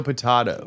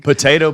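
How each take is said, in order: First: "potato" as po-TAH-to, tune falling. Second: "Potato" as po-TAY-to, pitched up and loud. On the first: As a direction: say "potato" with an open AH. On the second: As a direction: say "Potato" with a long AY, punched. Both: Shown as a demonstration. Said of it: "it's the same word".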